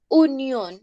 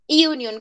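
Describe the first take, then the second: First: It begins with a plain 'oo' vowel. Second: It begins with a 'y' glide before 'oo'. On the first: "acá dice unión" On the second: "como si hubiera una i antes de la u"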